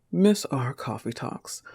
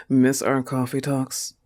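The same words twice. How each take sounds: First: Reading the text with a slight mock sweetness; lightly imitating the sender; a touch of mock flirtation. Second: Scornful disbelieving repeat of "Miss our coffee talks"; sarcastic questioning echo; incredulous echo. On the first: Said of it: "Read it to me". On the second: Acted. Scoffing at the rival's text.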